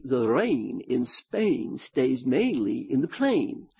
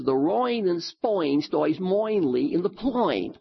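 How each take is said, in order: First: Slow, careful proper English; precise, proper English pronunciation. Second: "rain" and "Spain" said as "royn" and "spoyn" in Cockney; mock Cockney vowels, rain as royn; Cockney accent. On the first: Shown as a demonstration. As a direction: enunciate it like a posh Englishman. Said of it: "So in proper English, it would be". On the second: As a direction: imitate a Cockney flower girl. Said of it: "this Cockney girl who always says".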